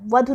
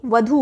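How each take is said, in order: First: वधु with short final u; wrong form. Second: वधु with long final 'oo'; correct long vowel. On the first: Teacher rejecting a misspelling, short 'u' ending वधु. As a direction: cut the last vowel of वधु short. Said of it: "वधु नहीं होता". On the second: Teacher giving correct form, long 'oo' ending वधु. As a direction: draw out the end of वधु as vadhoo. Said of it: "बड़े ऊ की मात्रा होती है". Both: Shown as a demonstration.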